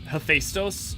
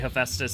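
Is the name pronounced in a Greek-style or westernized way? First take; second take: Greek-style; westernized. First: The name is said with a Greek-style pronunciation. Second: The name is said with an anglicized pronunciation. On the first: "do you bother saying" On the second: "the like westernized version of it"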